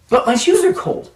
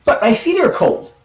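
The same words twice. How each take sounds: First: Put-on whiny kid protest. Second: Said in the usual way. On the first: Kid protesting to scoutmaster, again.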